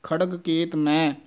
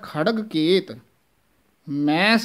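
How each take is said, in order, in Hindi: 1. वाक्यांश बिना विराम के बोला जाता है। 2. वाक्यांश विराम के साथ बोला जाता है। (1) "ਉਹ ਨਹੀਂ ਕਹਿ ਦੇਣਾ" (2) "ਵਿਸਰਾਮ ਲਾਉਣਾ ਹੈ"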